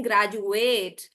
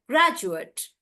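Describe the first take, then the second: First: "graduate" slow, with long "ATE"; "graduate" as "grad-ju-AYT"; verb pronunciation. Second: "graduate" slow, stressed on GRAD; "graduate" with short final syllable; noun pronunciation. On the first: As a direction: stretch the end of "graduate". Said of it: "I'm not saying graduate". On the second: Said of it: "For the noun". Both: Shown as a demonstration.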